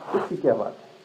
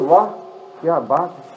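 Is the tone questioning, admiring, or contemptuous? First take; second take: contemptuous; admiring. First: It is said with contempt. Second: It is said with admiration.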